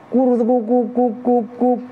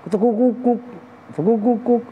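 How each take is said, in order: First: High cooing turtledove call; dove cooing. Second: High cooing turtledove call, a different rhythm; other dove cooing. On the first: Preacher imitating the first dove's coo. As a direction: coo it like a perkutut. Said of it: "Tapi kenapa?". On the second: Preacher imitating the second dove's different coo. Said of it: "Yang satu". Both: Retold or imitated.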